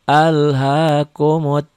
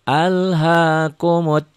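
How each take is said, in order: The two takes are said the same way.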